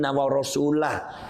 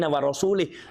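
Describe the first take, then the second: First: The final word ends with an 'ah' sound. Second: The final word ends with an 'ih' sound. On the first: God and His Messenger are free of the polytheists. The speaker calls it right. "Ini harus wa rasulah" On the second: God is free of the polytheists and of His Messenger. The speaker calls it wrong. "Coba kalau dibaca wa rasulih"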